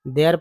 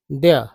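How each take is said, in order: First: "there" with the r sounded at the end, like "dear"; "there" with a clear r at the end; wrong way with r. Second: "there" ending open on "dea", no r; "there" with the final r left out; r not pronounced. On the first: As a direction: say "there" rolling the final r the way some people wrongly do. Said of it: "देखिए कुछ लोग इसे there पढ़ते हैं". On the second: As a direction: say "there" letting the r drop silent. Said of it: "इस तरह से र का उच्चारण नहीं करना". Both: Shown as a demonstration.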